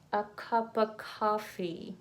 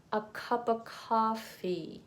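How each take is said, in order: Both takes have the same delivery.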